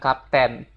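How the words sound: It is pronounced like the Indonesian word kapten. The speaker calls it wrong. "dia bukan bilang kapten"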